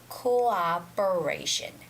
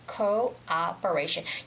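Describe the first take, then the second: First: The two O sounds are said separately. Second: The same.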